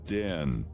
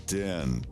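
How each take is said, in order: Both takes have the same delivery.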